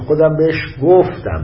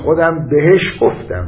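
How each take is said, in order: First: The stress falls on the last word. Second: The stress falls on the middle word. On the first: It matters that it was told rather than given or sold. "تأکید رو گفتنش" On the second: It matters who was told. "یه وقت موضوع اینه به کی گفت، ... بهش تأکید میکنه"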